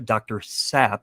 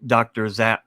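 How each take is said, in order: First: The name begins with a hissing s sound. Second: The name begins with a buzzing z sound. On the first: The speaker calls it right. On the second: The speaker calls it wrong.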